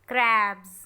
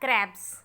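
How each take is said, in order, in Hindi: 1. शब्द का अंत गुंजन वाली z ध्वनि से होता है। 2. शब्द का अंत फुफकारने वाली s ध्वनि से होता है। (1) "you have to pronounce z"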